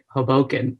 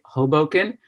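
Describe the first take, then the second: First: The stress is on the second syllable. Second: The stress is not on the second syllable.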